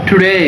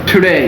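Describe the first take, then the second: The two takes are said the same way.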